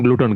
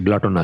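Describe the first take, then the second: First: The first vowel sounds like 'oo'. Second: The first vowel sounds like 'o'. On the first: The speaker calls it wrong. "আমি জানতাম গ্লুটন" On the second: The speaker calls it right. "শুদ্ধ উচ্চারণ হচ্ছে গ্লটন"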